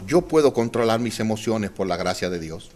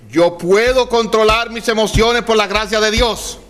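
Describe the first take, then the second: First: Softer, lower, spoken as an example to repeat; quiet model line. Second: Sung over music, higher, a declaration; chanted affirmation. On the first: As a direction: say it gently for them to copy. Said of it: "Usted sería tan amable de decirme". (frase modelo dicha en voz baja) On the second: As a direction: chant it out for the neighbor to hear. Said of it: "Dígaselo al de al lado". (chanted, afirmación cantada en voz alta) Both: Shown as a demonstration.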